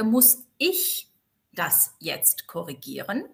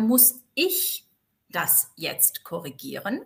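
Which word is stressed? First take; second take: ich; ich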